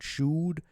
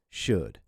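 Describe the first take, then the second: First: The vowel is a long oo sound. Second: The vowel is a short uh sound. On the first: The speaker calls it wrong. "it's not should" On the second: The speaker calls it right. "it's an uh sound, a short U sound"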